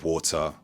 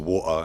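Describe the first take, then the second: First: The middle T is a clear T. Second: The middle T is a glottal stop. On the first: "instead of" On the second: "we tend to speak with a glottal stop"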